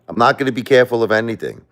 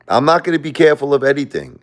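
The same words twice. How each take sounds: First: Quick, firm repeat of "I'm not gonna be careful of anything"; fast firm vow. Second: Laughing defiance. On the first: To viewers, repeating his defiant vow quickly. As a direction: rattle off the vow with resolve. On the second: To viewers about grief and God, laughing defiance. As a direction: laugh through a defiant vow, pitched higher and louder. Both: Real, not acted.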